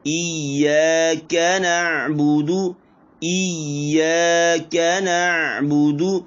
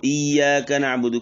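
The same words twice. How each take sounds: First: Slow chanted इय्याका नअबुदु, full zabar on का; higher melodic recitation; full vowel recitation. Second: इय्याका नअबुदु rushed, का cut short; quick spoken इय्याका नअबुदु; half vowel wrong. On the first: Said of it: "इसको पूरा पढ़ना है". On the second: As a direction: show the clipped mistake on इय्याका. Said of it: "ये नहीं पढ़ना है". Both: Shown as a demonstration.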